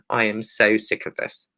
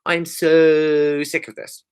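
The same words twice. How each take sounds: First: "so" given measured emphasis without a long stretch; restrained stress on "so", usual pace; underlined SO. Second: "so" drawn out very long; slow, hugely lengthened "so" for emphasis; extended SO. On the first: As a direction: lightly underline the word "so". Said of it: "we just underline again". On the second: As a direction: stretch the vowel of "so" as if spelt with extra letters. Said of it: "Or extra letters". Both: Shown as a demonstration.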